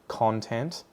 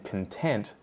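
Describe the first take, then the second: First: The stress is on the first syllable. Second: The stress is on the second syllable. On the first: It is the noun meaning material. "first syllable is stress, second one is the schwa sound" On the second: It is the adjective meaning happy. "first syllable is the schwa, unstressed, and then the next syllable, tent, is the stressed one"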